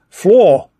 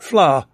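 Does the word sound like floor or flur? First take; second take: floor; flur. First: The word is said like floor. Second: The word is said like flur. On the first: "Americans, however, pronounce fleur as floor" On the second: "whereas we pronounce it fleur"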